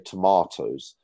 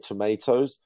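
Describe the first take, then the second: First: It is said with a British accent. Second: It is said with an American accent.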